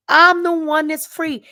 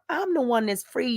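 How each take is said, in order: First: Higher and louder, proclaiming it; louder declaration. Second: Said in the usual way. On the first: Real, not acted. Telling her viewers she is free, raised and loud. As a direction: announce your freedom to the viewers.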